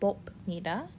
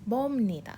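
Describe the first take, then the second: First: The middle consonant is a hard b sound. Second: The middle consonant is a smooth m sound. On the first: The speaker calls it wrong. "not 봅니다. We don't want to say that" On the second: The speaker calls it right. "that pronunciation is meant to be smooth. It's kind of like an M sound"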